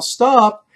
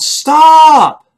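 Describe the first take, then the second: First: A milder high recalled stop; retold yell. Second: Sudden high, loud shout of alarm; urgent yell. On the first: Retelling his warning to the driver, milder yell. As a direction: call it again but less fully. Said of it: "my heart told me to yell". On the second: Retold or imitated. Passenger yells at the driver to stop, urgent shout. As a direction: bellow it to halt the car. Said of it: "and I yelled".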